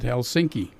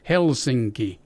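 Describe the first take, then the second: First: The stress is on the second syllable. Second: The stress is on the first syllable. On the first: The speaker calls it wrong. "he pronounced it Helsinki, and it's not right" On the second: The speaker calls it right. "the first syllable is hit hard"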